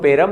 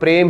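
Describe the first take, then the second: First: A vowel is inserted between p and r. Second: The p and r are joined as a cluster. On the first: The speaker calls it wrong. "लेकिन हम पेरम नहीं बोलते" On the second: The speaker calls it right. "हम प्रेम ही बोलेंगे"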